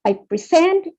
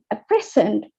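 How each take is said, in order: First: The stress is on the second syllable. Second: The stress is on the first syllable.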